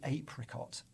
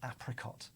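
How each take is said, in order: First: The first vowel is a long 'ay' sound. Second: The first vowel is a short 'a' sound. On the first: This is the usual way it is said. "we've kind of made that into an A sound" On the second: This matches the words it came from. "they would have been pronounced ab or ap"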